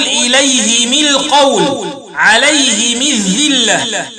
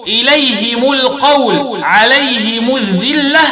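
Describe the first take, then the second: First: "إليهم القول، عليهم الذلة" linked as -himi; slow recitation, i after both h and m in "إليهم" and "عليهم"; kasr ha and mim. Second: "إليهم القول، عليهم الذلة" linked as -himu; i after h, u after m in "إليهم" and "عليهم"; kasr ha, damm mim. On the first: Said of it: "بكسر الهاء والميم وصلا". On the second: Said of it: "قرأ الباقون بكسر الهاء وضم الميم". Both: Shown as a demonstration.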